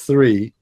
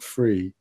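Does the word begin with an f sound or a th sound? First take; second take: th; f. First: The word begins with a th sound. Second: The word begins with an f sound. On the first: The speaker calls it right. "It's 3" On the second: The speaker calls it wrong. "not 3 ... you say free and three all the time"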